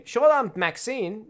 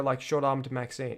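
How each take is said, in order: First: Tries Short-armed Maxine with a rising, careful read; testing the name in an American accent. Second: Said in the usual way. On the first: Shown as a demonstration. Streamer tries renaming the character to test the name, careful American read. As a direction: sounds out Short-armed Maxine slowly, checking how it flows. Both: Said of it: "I should have named her".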